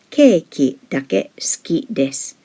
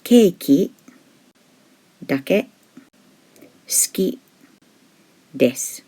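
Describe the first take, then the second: First: Said in the usual way. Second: "Keiki dake suki desu" broken into words with long pauses between them; teacher spacing out each word for learners; slow word by word. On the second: Shown as a demonstration. Teacher to learners, word by word with pauses.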